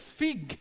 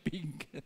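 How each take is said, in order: First: The word begins with an f sound. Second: The word begins with a p sound. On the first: It names the fruit. The speaker calls it right. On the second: It sounds like the word for a pig. The speaker calls it wrong. "Kasi baka yung ibang pronunciation"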